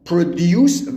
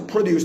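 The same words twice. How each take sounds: First: The stress is on the second syllable. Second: The stress is on the first syllable. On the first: It is used as a verb. "وقتی به عنوان فعل باشه استرس تو قسمت دومه" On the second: It is used as a noun. "وقتی به عنوان اسم باشه بچه produce تلفظ می شود"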